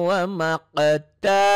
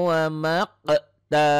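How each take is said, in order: No difference in how they are said.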